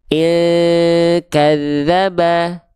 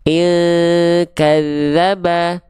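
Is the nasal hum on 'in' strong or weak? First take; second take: weak; weak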